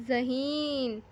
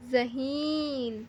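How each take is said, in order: First: Said in the usual way. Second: ذہین said slowly, each sound clear after the isolated ز; slow clear word. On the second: Shown as a demonstration. Teacher to children sounding out ذہین, slow and clear. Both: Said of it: "زال کی آواز نکلتی ہے".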